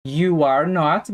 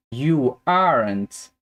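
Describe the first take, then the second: First: Slow "you are not" in three words; full negative form. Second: Slow "you aren't", ending in n't; contracted negative. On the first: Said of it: "pega a forma negativa dele". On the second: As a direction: merge "are not" into "aren't". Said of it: "vai ficar". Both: Shown as a demonstration.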